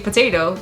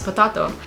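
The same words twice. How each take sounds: First: It sounds like the everyday English word potato. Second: It is said with a Portuguese-style pronunciation. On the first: The speaker calls it wrong. "you see potato" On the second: The speaker calls it right. "It's of Portuguese origin, so you would pronounce it potato"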